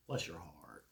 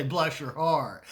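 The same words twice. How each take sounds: First: Low, hushed, sugary "Bless your heart"; quiet deadpan dig; sarcastic blessing. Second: Slow, syrupy Southern "Bless your heart"; sweetly sarcastic. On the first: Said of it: "our way of being sarcastic". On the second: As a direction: drawl it out, sugar on top, knife beneath. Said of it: "it's kinda like when we say". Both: Retold or imitated.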